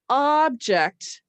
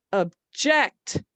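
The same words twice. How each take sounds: First: "object" as a noun, first syllable punched and drawn out; OB-ject, slow and emphatic; stress on OB. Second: "object" as a verb, second syllable punched; slight first syllable in "object", then a loud JECT; ob-JECT, slow, weight on the end; stress on JECT. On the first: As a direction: punch OB in "object", let the second syllable fall. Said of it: "try stressing this syllable". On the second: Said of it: "actually physically punching it". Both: Shown as a demonstration.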